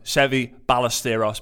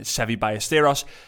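First: It is said in an English accent. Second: It is said in a Spanish accent.

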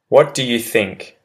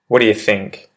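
First: Every word is said fully and separately. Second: The words are run together and reduced, quickly. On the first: "I say the proper English phrase" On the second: "I'll repeat the pronunciation shift one"

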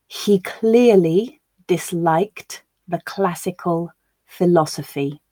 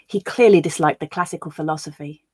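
First: The sentence is read slowly. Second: The sentence is read at natural speed. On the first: "I will read it once slowly so that you can grasp the words" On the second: "We'll then listen again at a more natural pace"

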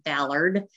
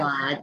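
First: It is said in a Southern US accent. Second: It is said with first-syllable stress, non-Southern.

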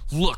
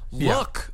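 First: It sounds stern and scolding, like a reprimand. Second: It sounds eager and excited, like showing something off. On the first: A warning or telling-off to someone. "see here, mister" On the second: Check out what I have. "look at what I have?"

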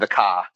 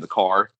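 First: It is said in a Boston accent. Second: It is said in a Southern accent.

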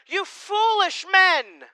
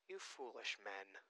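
First: It is said forcefully, as an exclamation. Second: It is said mildly, without force.

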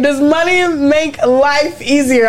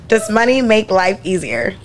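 First: It is said in a silly, drunk-sounding way. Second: It is said in a plain, sober way.

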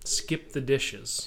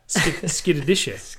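First: The three words are said separately and clearly. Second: The words are blurred together into one word.

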